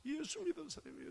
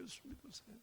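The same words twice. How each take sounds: First: Said in the usual way. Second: Softer echo of the urging. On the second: Retold or imitated. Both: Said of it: "그때 제 마음에서".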